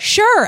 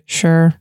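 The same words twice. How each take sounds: First: It is said with excited enthusiasm. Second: It is said flatly, without enthusiasm.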